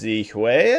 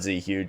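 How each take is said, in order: First: The name ends with a 'hwee' sound. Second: The name ends with a 'huge' sound. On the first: The speaker calls it right. "I think is how you actually pronounce it" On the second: The speaker calls it wrong. "It's not Z Huge"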